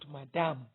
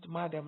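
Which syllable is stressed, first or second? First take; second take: second; first. First: The stress is on the second syllable. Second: The stress is on the first syllable. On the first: The speaker calls it wrong. "not madam ... it puts the stress on the second syllable, which is wrong" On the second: The speaker calls it right. "madam is pronounced madam ... so the stress is on the first syllable"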